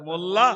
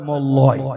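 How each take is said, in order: First: The name ends with an open 'a' sound. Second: The name ends with an 'oy' sound. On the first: This is the name as it should be said. The speaker calls it right. "কোথায় মোল্লা" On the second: The name was read from a bad English spelling. The speaker calls it wrong. "মোল্লা বানান লিখছি M O double L Y, মোল্লয়। সর্বনাশ"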